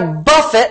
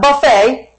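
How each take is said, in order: First: It ends in a 't' sound, stressed first. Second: It ends in an 'ay' sound, stressed last. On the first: It means to strike repeatedly. The speaker calls it right. "I buffet" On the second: It means a self-service meal. The speaker calls it wrong. "not buffet. Buffets are good, but that's not what he was talking about here"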